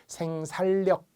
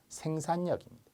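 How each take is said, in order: First: The middle sounds are l followed by l. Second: The middle sounds are n followed by n. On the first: The speaker calls it wrong. "원칙이라면 리을 리을이어야 돼요" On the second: The speaker calls it right. "니은 니은으로 발음한다"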